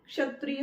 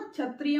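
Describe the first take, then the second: First: क्षत्रिय begun with a crisp "ksh"; correct pronunciation. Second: क्षत्रिय begun with a "chh" sound; wrong pronunciation. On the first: Teacher models correct word, ksh-sounded क्षत्रिय. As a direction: sound the क्ष cluster of क्षत्रिय fully. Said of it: "क्षत्रिय होता है ये". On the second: Teacher warns against the error, chh-sounded क्षत्रिय. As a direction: say क्षत्रिय as "chhatriya". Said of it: "इसको ना क्षत्रिय मत बोलना". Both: Shown as a demonstration.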